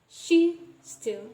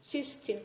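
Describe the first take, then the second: First: The words keep their separate sounds. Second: The sounds between the words are assimilated. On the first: The speaker calls it wrong. "we don't pronounce as she still" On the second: The speaker calls it right. "we pronounce it as she's still"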